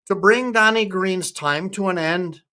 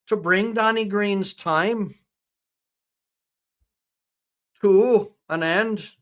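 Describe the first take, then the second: First: Put-on lightly Scottish-accented ballad line; attempted Scottish accent. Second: Put-on slow, higher Irish-accented verse; attempted Irish accent. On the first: Retrying the ballad for chat, attempted Scottish accent. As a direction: recite it with an amateur Scottish lilt. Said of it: "I'm gonna try and be Scottish". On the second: Reciting a ballad for Danny Green, attempted Irish accent. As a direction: draw the line out in an amateur Irish brogue. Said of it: "I'm trying to talk Irish".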